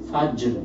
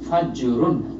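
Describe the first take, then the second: First: The word stops on a bare, heavy r. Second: The word ends with a full 'run' ending. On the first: The reader stops on this word. "ওয়াকফ করে পড়লে মানে থেমে পড়লে" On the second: The reader carries on without stopping. "এখানে তো বললেন ফাজরুন"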